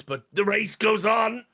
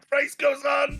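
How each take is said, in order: First: Higher, slow, drawn-out "goes"; mock Heston line. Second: Much higher, "goes" pushed up near a shout; hammier mock repeat. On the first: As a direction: stretch "goes" out long and high like a hammy villain. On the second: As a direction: push the repeat even higher and more overwrought. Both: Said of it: "And then he goes".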